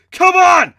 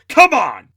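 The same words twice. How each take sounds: First: Very high, very loud shout; shouted call. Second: High, loud rallying shout; shouted rallying call. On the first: Hero grabbing Tiger to retreat, loud shout. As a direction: yell to pull him away. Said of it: "I shouted, grabbing Tiger". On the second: Hero rallying friends to save the prisoners, loud shout. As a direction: yell it to get everyone moving. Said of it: "I stood up and shouted". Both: Acted.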